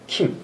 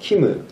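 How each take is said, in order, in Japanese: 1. 名前は母音のないmの音で終わる。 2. 名前は完全な'mu'の音節で終わる。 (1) "韓国ではキム" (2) "日本語の表現のキムだけど"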